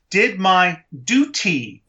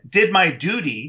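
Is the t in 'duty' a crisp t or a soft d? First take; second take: crisp t; soft d. First: Duty has a crisp t sound, British style. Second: Duty has a soft d sound, like doody. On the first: The speaker calls it wrong. "he says it with the British accent of, did my duty with a T" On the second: The speaker calls it right. "then you've got a joke because poo is duty"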